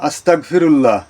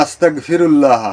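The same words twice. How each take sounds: The two takes are said the same way.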